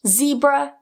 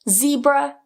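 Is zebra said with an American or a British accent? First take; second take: American; American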